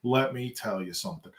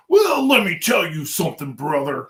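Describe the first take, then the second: First: Said in the usual way. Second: Higher, louder, hyped wrestler growl; wrestling promo. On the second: Acted. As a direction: cut a promo like a pro wrestler. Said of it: "this was gonna go into a wrestling promo".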